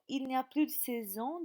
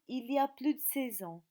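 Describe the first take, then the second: First: The negative 'ne' sound is pronounced. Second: The negative 'ne' sound is left out. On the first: "on supprime le ne de la négation" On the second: "en langue familière, on supprime le ne de la négation"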